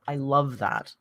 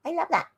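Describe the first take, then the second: First: Said in the usual way. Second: "I love that" jumped up high; high gushing "I love that"; squeaky high repeat. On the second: Real, not acted. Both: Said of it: "repeated higher".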